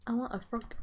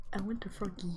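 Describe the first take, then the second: First: Said in the usual way. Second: Whispered little wish for a froggy. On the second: Acted. Player whispering her wish for a froggy to herself. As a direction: hush it out like a child's wish.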